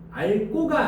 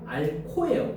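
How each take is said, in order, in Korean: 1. 두 번째 음절은 예사소리 g로 시작해요. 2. 두 번째 음절은 거센소리 k로 시작해요. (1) "앓고가 아니고" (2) "앓코예요, 코"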